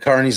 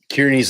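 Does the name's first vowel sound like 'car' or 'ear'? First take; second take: car; ear. First: The first vowel sounds like 'car'. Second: The first vowel sounds like 'ear'. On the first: It follows the family's own usage. "them pronouncing it Carney" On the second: It follows the spelling. "You said Kearney. / that's how it's spelled"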